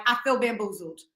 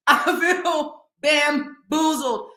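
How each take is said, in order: First: Said in the usual way. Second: "bamboozled" drawn out slowly and higher; emphatic slow repeat. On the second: Real, not acted. Declaring herself fooled by Disney stars, slow emphatic "bamboozled". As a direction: break "bamboozled" into slow, separate beats.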